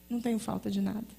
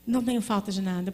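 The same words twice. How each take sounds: First: Quiet. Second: "Não" leaned on firmly, the rest steady; stress on não. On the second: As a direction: open with a weighty "Não". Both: Shown as a demonstration.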